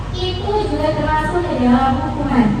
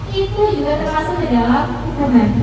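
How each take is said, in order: No difference in how they are said.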